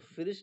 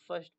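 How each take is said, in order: First: An extra vowel splits it into two syllables. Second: It is said as one syllable. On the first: The speaker calls it wrong. "इसको फिरिस्ट नहीं पढ़ेंगे" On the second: The speaker calls it right. "बल्कि फर्स्ट पढ़ेंगे"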